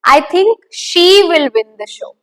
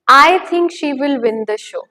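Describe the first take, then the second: First: The stress falls on the word she. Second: The stress falls on the word I. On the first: It is she, not someone else, who will win. "Her. That's what I'm talking about" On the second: This is the speaker's own opinion. "What am I hinting at through that word stress on I?"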